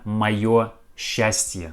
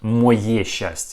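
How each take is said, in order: First: The first word ends with a 'yo' sound. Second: The first word ends with a 'ye' sound. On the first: The speaker calls it right. "We pronounce this sentence like это моё счастье" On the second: The speaker calls it wrong. "not мое счастье"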